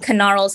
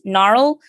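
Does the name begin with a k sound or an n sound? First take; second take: k sound; n sound. First: The name begins with a k sound. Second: The name begins with an n sound. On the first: The speaker calls it right. "it's supposed to be Knarl's Candy Compendium for the alliteration" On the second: The speaker calls it wrong. "everyone pronounces it just Gnarl"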